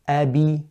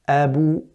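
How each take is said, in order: First: The b is followed by an i vowel. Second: The b is followed by a rounded u vowel. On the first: "And if I said kasra" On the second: "And if I say dhamma"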